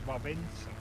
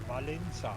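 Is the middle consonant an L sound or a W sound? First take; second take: W sound; L sound. First: The middle consonant is said as a W. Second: The middle consonant is said as an L. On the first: The speaker calls it right. "So the real pronunciation is Vavenza" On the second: The speaker calls it wrong. "which is wrong because the second L is like a W"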